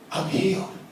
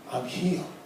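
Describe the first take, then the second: First: It is said with strong feeling and conviction. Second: It is said with strong feeling and conviction.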